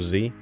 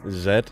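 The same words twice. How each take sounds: First: The letter is said the American way. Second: The letter is said the British way.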